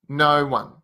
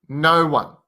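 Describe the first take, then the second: No difference in how they are said.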